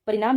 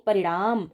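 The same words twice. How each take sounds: First: First परिणाम with a plain dental n; परिणाम with tongue on the teeth for n; wrong pronunciation. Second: परिणाम with retroflex ṇ; परिणाम as pa-ri-ṇaam, almost a flapped ṛ; correct pronunciation. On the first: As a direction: say परिणाम as pa-ri-naam. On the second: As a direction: curl the tongue back on the n of परिणाम. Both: Shown as a demonstration. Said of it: "परिणाम नहीं परिणाम".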